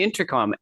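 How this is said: Every consonant is pronounced clearly and carefully. "I actually pronounced all the letters, all the consonants"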